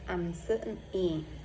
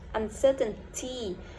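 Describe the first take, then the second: First: The middle t sound is dropped. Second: The middle t sound is clearly pronounced. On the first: "we can drop t and we pronounce uncertainty" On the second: "i i didn't pronounce uncertainty"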